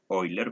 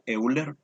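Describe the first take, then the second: First: The name begins with an 'oi' sound. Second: The name begins with a spelled-out 'eu' sound. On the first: This is the original pronunciation of the surname. The speaker calls it right. "la pronunciación de su apellido es Euler" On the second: This is how many people say the name. The speaker calls it wrong. "Muchos lo pronuncian como Euler"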